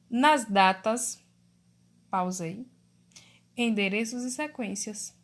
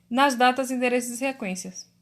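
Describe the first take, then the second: First: There is a pause after "datas". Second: It is read straight through without a pause.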